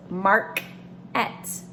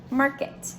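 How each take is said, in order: First: "mark-et" said very slowly, split into "mark" and "et"; split into syllables. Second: Said in the usual way. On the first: Shown as a demonstration. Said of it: "This A R says R, so it's". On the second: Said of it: "One more word, for example".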